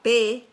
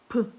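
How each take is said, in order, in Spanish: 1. Se dice el nombre completo de la letra, con su vocal. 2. Solo se pronuncia el sonido consonántico, brevemente. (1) "La P" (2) "el sonido es P"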